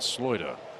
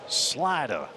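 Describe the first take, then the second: First: It is said in an Australian accent. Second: It is said in a Southern American drawl. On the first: "Peter Moylan with his Australian accent" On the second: "Jeff has the southern drawl"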